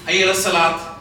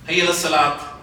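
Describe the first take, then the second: No difference in how they are said.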